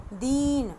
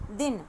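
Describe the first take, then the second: First: दीन with a long drawn ee; long ई matra in दीन; long ee sound. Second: दिन with a short quick i; short ई matra in दिन; short i sound. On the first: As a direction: stretch the ee in दीन. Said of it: "ई की मात्रा का पढ़ेंगे हम". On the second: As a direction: say दिन with a clipped short vowel. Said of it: "हमने धीरे से बोला दिन". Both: Shown as a demonstration.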